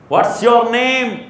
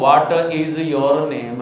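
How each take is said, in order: First: 'What is' is shortened to 'what's'. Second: 'What is' is said as two full words. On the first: The speaker calls it right. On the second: The speaker calls it wrong.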